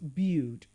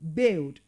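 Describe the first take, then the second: First: The vowel is a long ee sound. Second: The vowel is a short i sound. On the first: The speaker calls it wrong. "and not build" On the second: The speaker calls it right. "that word is pronounced as build"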